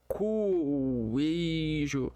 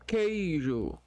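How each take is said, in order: First: A 'w' sound follows the k. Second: No 'w' sound follows the k. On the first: The speaker calls it wrong. "A gente não fala cueijo" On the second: The speaker calls it right. "a gente fala é, na boca queijo"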